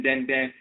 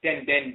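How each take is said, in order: First: Den, den said slowly, nasal vowel, each den spoken apart; teacher pronouncing den, den for listeners; slow clear demo. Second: Den, den repeated softly, nasal vowel, each Den spoken apart; quieter repeat. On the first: Teacher sounding out den, den for the audience, slow and clear. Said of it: "they use the term den". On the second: Teacher repeating Den, den after explaining it, quiet and clear. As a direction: softly echo Den, den as a reminder. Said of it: "Den means strong or hard". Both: Shown as a demonstration.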